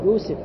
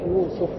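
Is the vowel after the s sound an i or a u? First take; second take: i; u. First: The vowel after the s is an i. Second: The vowel after the s is a u. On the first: The speaker calls it wrong. "المصريين يقولونها يوسف. يوسف هكذا، وهذا خطأ" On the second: The speaker calls it right. "أما الصحيح يوسف"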